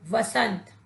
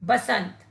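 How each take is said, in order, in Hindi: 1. यह शब्द व की ध्वनि से शुरू होता है। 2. यह शब्द ब की ध्वनि से शुरू होता है। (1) "शब्द बनेगा वसंत" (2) "ब के स्थान पर व का प्रयोग करेंगे"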